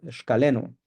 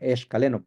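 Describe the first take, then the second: First: The word starts directly with an sh sound. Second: The word starts with an added e vowel. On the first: The speaker calls it right. "Iniciamos eh, la palabra con esta X" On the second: The speaker calls it wrong. "ponen una E antes"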